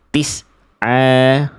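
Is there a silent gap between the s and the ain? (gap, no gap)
gap. A silent gap breaks the s from the next sound. The speaker calls it wrong. "kayak ada berhenti dulu, kayak ada jeda dulu"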